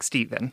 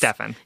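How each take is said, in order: First: The name has its usual pronunciation. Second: The name is deliberately pronounced a different way. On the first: "we think it's pronounced Stephen" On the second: "We just want to intentionally mispronounce it"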